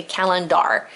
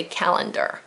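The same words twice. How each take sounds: First: "calendar" with a clear "dar" ending; spelling pronunciation. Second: Said in the usual way. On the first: Shown as a demonstration. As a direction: sound the a in the last syllable of "calendar". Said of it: "I had to say calendar". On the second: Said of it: "even though we say calendar".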